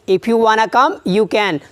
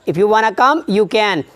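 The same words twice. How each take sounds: First: Want to is contracted into one word, wanna. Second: Want to is contracted into one word, wanna.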